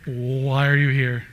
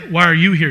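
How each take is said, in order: First: Slow, drawn-out "Why are you here?"; mock puzzlement. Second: Loud retort with YOU punched; stress on YOU. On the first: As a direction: stretch out WHY as if baffled by them. Puzzled people in heaven, acted. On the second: Acted. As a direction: throw the question back, leaning on YOU. Others looking back at us, acted.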